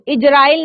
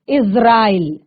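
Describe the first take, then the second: First: The middle consonant sounds like English j. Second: The middle consonant sounds like English z. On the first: The speaker calls it wrong. "इसको इजराइल नहीं पढ़ेंगे" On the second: The speaker calls it right. "क्या पढ़ेंगे, इज़राइल"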